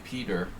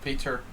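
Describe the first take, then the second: First: The name is pronounced the American way. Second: The name is pronounced the Hungarian way. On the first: "If I was living in the United States, I would say Peter" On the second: "I'm pronouncing your name in Hungarian style"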